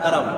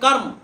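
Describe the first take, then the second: First: An extra vowel is heard between r and m. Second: No vowel is heard between r and m. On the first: This is how it is said for ease of pronunciation. "শব্দটাই কি বলা হয় কারাম। এটা মানুষের উচ্চারণের সুবিধার্থে" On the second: This is the word's underlying form. "ওটা তার মানে কার্ম"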